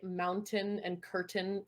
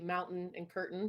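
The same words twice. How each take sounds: First: The T sounds in both words are fully pronounced. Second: The T sounds in both words are dropped. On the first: This is how a speaker's mother says it. "she'll say mountain and curtain fully" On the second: This is how most locals say it. "you kind of dropped the T"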